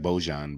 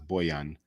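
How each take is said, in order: First: The middle consonant sounds like j in jam. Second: The middle consonant sounds like y in yes. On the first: It is read the way it is spelled. The speaker calls it wrong. "it looks like Bojan" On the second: It is the name's actual pronunciation. The speaker calls it right. "but it's Boyan"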